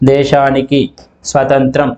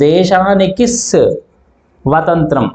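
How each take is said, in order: First: The 's' starts the second word, unattached. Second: The 's' is attached to the word before. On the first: The speaker calls it right. "స్వతంత్రం అనేది సపరేట్గా మొదలవుతుంది" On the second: The speaker calls it wrong. "అని మనం పలకం"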